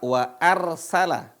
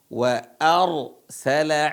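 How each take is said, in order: First: The r sound is light and thin. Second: The r sound is heavy and thick. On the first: The speaker calls it wrong. "Bukan dibaca wa arsala" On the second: The speaker calls it right. "dibaca ra-nya tebal"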